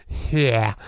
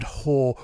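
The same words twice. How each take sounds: First: "here" as an affected New Orleans way of saying whore; New Orleans accent on whore. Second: Said in the usual way. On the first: Shown as a demonstration. Showing the cast's odd vowel, "here" for whore in New Orleans accent. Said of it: "all of a sudden becomes here". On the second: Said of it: "where the word whore".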